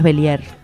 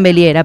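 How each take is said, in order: First: The surname is said in its original French way. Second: The surname is said in an Argentinized way. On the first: This is the family's own form of the name. The speaker calls it right. "pero es Bellier" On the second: This is how people locally adapt the name. The speaker calls it wrong. "argentinizado, le dicen Belliera"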